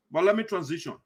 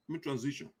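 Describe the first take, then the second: First: Said in the usual way. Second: Much softer, said under the breath; soft repeat. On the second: Real, not acted. Host murmuring to himself before the next topic, softly. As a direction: drop it to yourself.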